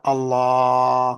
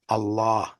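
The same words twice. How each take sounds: First: The vowel is stretched out longer. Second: The vowel is held for one short beat. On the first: The speaker calls it wrong. "Not Allah, like we do in Allahu Akbar" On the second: The speaker calls it right. "Then one beat"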